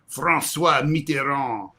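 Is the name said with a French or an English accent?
French. The name is said with French pronunciation. The speaker calls it wrong. "you would never be like"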